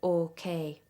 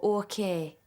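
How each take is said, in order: First: It is said in a standard accent. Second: It is said in a Geordie accent.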